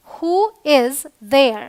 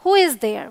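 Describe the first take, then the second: First: Very slow, each word stretched; slow teaching demo. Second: Said in the usual way. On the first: Shown as a demonstration. Teacher showing learners who is there, very slow. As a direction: spell the question out for students. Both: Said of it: "वहाँ कौन है?".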